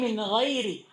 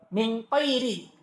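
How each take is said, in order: First: The second word begins with a soft gh sound. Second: The second word begins with a hard q sound. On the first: The speaker calls it right. "Ay min ghairi" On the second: The speaker calls it wrong. "Tapi dia jadikan qaf"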